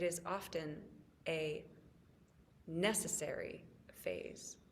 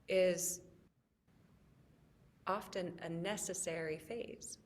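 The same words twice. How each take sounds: First: 'A' is clearly set apart from 'necessary'. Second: 'A necessary' blurs together, sounding like 'unnecessary'. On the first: "I had to say it that way" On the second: "in case you might have heard it as it's often unnecessary"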